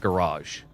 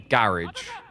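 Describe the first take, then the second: First: It is said the American way. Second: It is said the British way. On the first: "Americans call it a garage" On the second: "British people call it a garage"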